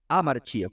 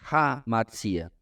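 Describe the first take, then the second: First: The word starts directly with a vowel. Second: The word starts with a breathy h sound. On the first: "você pronunciaria amartia, ... sem R" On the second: "você pronuncia de forma aspirada"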